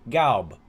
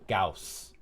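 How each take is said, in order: First: The name ends with a b sound. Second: The name ends with an s sound. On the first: "and you pronounce it as such" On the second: "many Germans now pronounce it in the American fashion"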